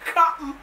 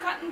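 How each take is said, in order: First: It is said in a Jamaican accent. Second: It is said in a standard English accent. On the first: The speaker calls it wrong. "some Jamaicans... they have to pronounce it cotton" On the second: The speaker calls it right. "the correct pronunciation of the word is cotton"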